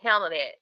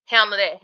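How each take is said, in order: First: "handle" low with a falling close; falling finish. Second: "handle" hit loud and strong; emphatic. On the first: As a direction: let "handle" drop low and settle. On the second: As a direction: punch the word "handle" hard. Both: Shown as a demonstration.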